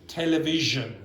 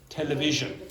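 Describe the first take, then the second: No difference in how they are said.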